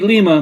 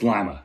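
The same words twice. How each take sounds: First: The first syllable sounds like 'lee'. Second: The first syllable sounds like 'lie'. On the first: This is how the name ought to be pronounced. "it should be Lima" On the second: This is how the locals actually pronounce it. "but it's Lima"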